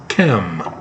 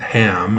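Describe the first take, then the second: First: The word begins with a harsh ch sound. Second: The word begins with a soft h sound. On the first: The speaker calls it right. "it's Chem" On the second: The speaker calls it wrong. "it's not Ham"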